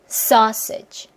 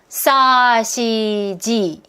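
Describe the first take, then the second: First: The first syllable is long and strong, then short. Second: All syllables are even in length and strength. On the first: The speaker calls it right. "이렇게 하면은 박자감이 나오는 거예요" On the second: The speaker calls it wrong. "이러면 박자감이 안 나오잖아요"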